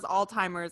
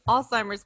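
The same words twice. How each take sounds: First: The z is pronounced as a t sound. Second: The z is pronounced as a z sound.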